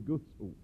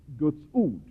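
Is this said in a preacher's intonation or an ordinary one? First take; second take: ordinary; preacher. First: It is said with an ordinary everyday intonation. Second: It is said with a preacher's special intonation. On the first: This is how other people say it. "medan andra säger Guds ord" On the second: This marks the speaker as a Pentecostal preacher. "en pingstpredikant, han säger Guds ord"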